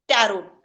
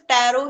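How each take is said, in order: First: The final t sound is pronounced. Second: The final t sound is silent. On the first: The speaker calls it wrong. "वो टैरो को टैरोट बोलते हैं" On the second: The speaker calls it right. "वहां पे टी silent हो जाएगा"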